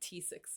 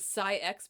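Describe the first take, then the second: First: The name is said like 'tee-six'. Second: The name is said like 'sigh-ex'. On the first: The speaker prefers to say it this way. "but I like T six, so I'm going to say T six" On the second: Another person says it this way. "Doctor Lee pronounced it Psi-X"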